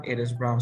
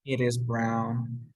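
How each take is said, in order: First: Said in the usual way. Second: It is brown, each word slow and separate; a teacher's slowed-down model; slow model sentence. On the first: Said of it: "The dog is brown". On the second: Shown as a demonstration. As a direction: spell it out slowly for the class.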